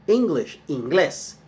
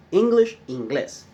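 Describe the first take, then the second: No difference in how they are said.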